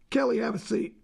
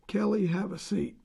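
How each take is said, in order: First: It is said in a harsh, commanding tone. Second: It is said in a warm, inviting tone. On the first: The listener is being ordered to sit. "I've just ordered you in a harsh way" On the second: The listener is kindly asked to be comfortable. "ask you to please be comfortable"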